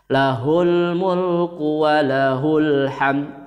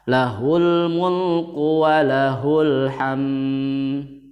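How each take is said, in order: First: The m sound is short and clear. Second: The m sound hums with a nasal drone. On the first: The speaker calls it right. "idhar syafawi itu jelas... Ini adalah contoh bacaan yang benar" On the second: The speaker calls it wrong. "Gak boleh membacanya dengung mimnya. Misalkan bacanya gini, ini adalah bacaan yang salah"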